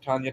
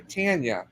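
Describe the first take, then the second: First: Tanya with an open "ah", like TAHN-ya; Canadian-accent Tanya. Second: Tanya with a short "a" as in "tan"; corrected Tanya. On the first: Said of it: "it's my Canadian accent". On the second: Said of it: "I'm sorry, Tanya". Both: Real, not acted.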